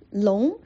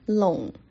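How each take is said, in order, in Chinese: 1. 用普通话的声调说。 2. 用广东话的声调说。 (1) "龙是普通话" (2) "龙就是粤语"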